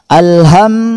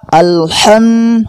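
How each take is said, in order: First: The h is a plain, light breathy h. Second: The h is a raspy sound from the throat. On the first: The speaker calls it wrong. "huruf ha kedengaran seperti huruf H ... Ini cara membaca yang salah" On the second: The speaker calls it right. "Cara membaca yang benar adalah"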